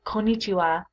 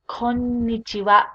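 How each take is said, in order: First: The n sound is short. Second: The n sound is held long. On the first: The speaker calls it wrong. "Be careful not to say konnichiwa" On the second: The speaker calls it right. "There's two N's"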